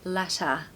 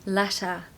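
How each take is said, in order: The two takes are said the same way.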